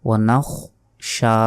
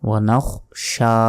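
Both takes have the same delivery.

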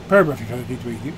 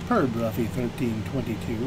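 First: The phrase is said quickly. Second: The phrase is said more slowly. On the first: The speaker calls it wrong. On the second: The speaker calls it right.

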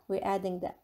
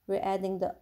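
Both takes have the same delivery.

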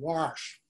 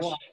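First: It has a regional Midwestern pronunciation. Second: It has a standard pronunciation. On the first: "How many in the family said wash" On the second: "Instead of wash"

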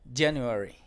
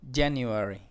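First: The u vowel is very soft. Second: The same.

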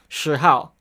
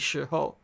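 First: The second syllable has an 'ao' vowel sound. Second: The second syllable has an 'ou' vowel sound. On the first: It carries a Cantonese-influenced accent. The speaker calls it wrong. "kind of have that ao sound in Cantonese" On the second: It is the standard Mandarin pronunciation. The speaker calls it right. "it should be shi hou"

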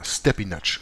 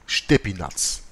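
First: The name is said in an English way. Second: The name is said in a non-English way.

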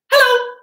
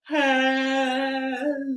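First: It is said fast. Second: It is said slowly.

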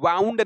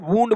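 First: The vowel sounds like 'ow' in cow. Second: The vowel sounds like 'oo' in moon. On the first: The speaker calls it wrong. "वाउंड नहीं बोलते बेटे" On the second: The speaker calls it right. "इसको वुंड बोला जाता है"

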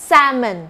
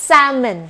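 Both takes have the same delivery.

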